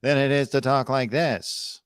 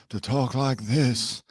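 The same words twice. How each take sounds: First: A second, slightly put-on voice; slow, lightly altered voice; contrasting voice. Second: Slow, drawled put-on style of a famous singer; slow affected drawl; fun put-on voice. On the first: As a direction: say it slowly in the less fun voice. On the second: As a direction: stretch it out in a showy affected voice. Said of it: "It's more fun to talk like this". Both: Shown as a demonstration.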